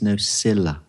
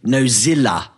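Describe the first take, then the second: First: The middle consonant is a hissing S sound. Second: The middle consonant is a buzzing Z sound. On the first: The speaker calls it right. "It's Nocilla" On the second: The speaker calls it wrong. "Not Dave, Nozilla. It's not Nozilla"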